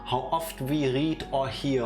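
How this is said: It is read with a put-on German accent.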